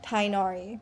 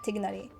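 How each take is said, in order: First: No 'g' sound comes before the 'n'. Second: A 'g' sound comes before the 'n'. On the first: The speaker calls it wrong. "they purposely say like Tainari, which is not correct" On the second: The speaker calls it right. "it's more like Tignari"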